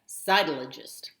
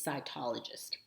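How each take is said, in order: First: The stress is on the first syllable. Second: The stress is not on the first syllable. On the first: The speaker calls it wrong. "they put the emphasis on the first syllable" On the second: The speaker calls it right. "it's cytologist"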